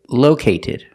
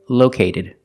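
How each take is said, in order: First: The t is a clear, real T sound. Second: The t sounds like a quick D. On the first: The speaker calls it wrong. "we cannot pronounce the T like a real T. We don't say located" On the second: The speaker calls it right. "it's pronounced like a fast D"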